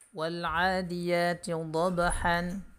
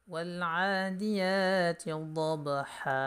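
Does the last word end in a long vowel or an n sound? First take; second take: n sound; long vowel. First: The last word ends with an n sound. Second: The last word ends with a long vowel.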